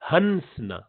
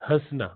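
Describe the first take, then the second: First: The n is fully pronounced with the tongue tip. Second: The n is nasalized without the tongue touching. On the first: The speaker calls it wrong. "इख्फा नहीं करेंगे, तो आप बोलेंगे" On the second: The speaker calls it right. "यहां पर ये इख्फा है।"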